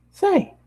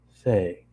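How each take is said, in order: First: Much higher bubbly pony voice; high Pinkie voice. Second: Said in the usual way. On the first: Acted. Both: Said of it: "oh wait, it's still Pinkie".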